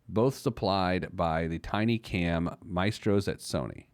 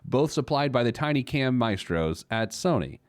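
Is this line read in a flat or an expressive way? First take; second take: flat; expressive. First: It is read in a plain, flat intonation. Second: It is read with lively, marked intonation. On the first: The speaker calls it wrong. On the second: The speaker calls it right.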